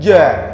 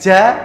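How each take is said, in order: First: The j is made with the airflow blocked. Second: The j is made with the mouth open. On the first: The speaker calls it right. "yang betul bukan begitu, tapi ja" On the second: The speaker calls it wrong. "nah itu kan terbuka semua, lidahnya kan nggak nahan angin ya"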